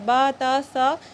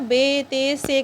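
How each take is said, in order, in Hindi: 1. अक्षरों के नाम लंबे 'a' स्वर पर खत्म होते हैं। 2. अक्षरों के नाम 'e' स्वर पर खत्म होते हैं। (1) "ये अरबी लहजा है" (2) "उर्दू लहजे में पढ़ाया जाता था"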